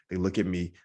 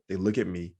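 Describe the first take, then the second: No difference in how they are said.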